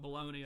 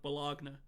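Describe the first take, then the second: First: It is said the usual way, ending in 'nee'. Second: It is said as spelled, ending in 'nya'. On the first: "if somebody's talking about baloney" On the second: "what if you actually pronounced it that way, like because it's B O L O G N A"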